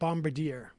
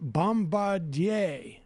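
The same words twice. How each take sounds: First: The name is given an English pronunciation. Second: The name is given a French pronunciation. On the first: The speaker calls it wrong. "Not Bombardier" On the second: The speaker calls it right. "it's Bombardier"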